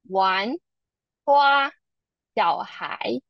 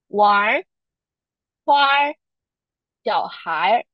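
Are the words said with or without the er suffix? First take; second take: without er; with er. First: Taiwanese Mandarin, without the er suffix. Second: Beijing Mandarin, with the er suffix added.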